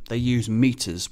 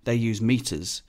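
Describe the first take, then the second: First: "use" slow, leaning on the verb; stress on use. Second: "they" stressed in contrast, slow and falling. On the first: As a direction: lean on "use", falling. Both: Shown as a demonstration. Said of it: "whereas we use feet".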